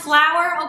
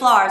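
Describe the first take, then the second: First: Flour is said with the standard pronunciation. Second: Flour is said with a British-influenced vowel. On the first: This is the commonly accepted pronunciation. "I know it's pronounced flour" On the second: This is how the family says it from British influence. "I grew up pronouncing it flour"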